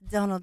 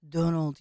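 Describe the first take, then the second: First: The voice is pitched high. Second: The voice is pitched low. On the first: "she actually has a higher voice" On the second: "I used to do her with a lower voice"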